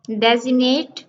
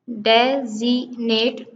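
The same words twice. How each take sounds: First: Said in the usual way. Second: "डेजिग्नेट" as de, zi, nate with gaps; split into syllables. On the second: Shown as a demonstration. Teacher counting three syllables in designate, one by one. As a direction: break "डेजिग्नेट" into three pieces. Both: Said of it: "three syllable".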